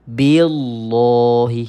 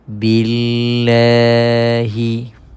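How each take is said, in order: First: The l sound is heavy and thick. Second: The l sound is light and thin. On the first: The speaker calls it wrong. "Kalau tebal, ... Salah lah" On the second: The speaker calls it right. "kalimah Allah yang dibaca dengan nipis"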